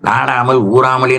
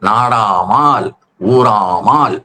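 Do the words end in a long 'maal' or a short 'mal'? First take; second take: short; long. First: The words end with a short 'mal' syllable. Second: The words end with a long 'maal' syllable. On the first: The speaker calls it wrong. "நாடாமல் ஊறாமல் என்றே சொல்லி தொலைக்கிறார்" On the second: The speaker calls it right. "ஆள் என்கிற விகுதியை போட்டுத்தான்"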